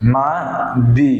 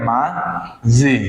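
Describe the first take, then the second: First: The second consonant is pronounced as a plain 'd'. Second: The second consonant is pronounced as a 'j'. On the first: The speaker calls it wrong. "হওয়ার কথা ছিল কি মা, মা দি" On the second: The speaker calls it right. "কিন্তু সেটা না হয় কি হবে? মা জি"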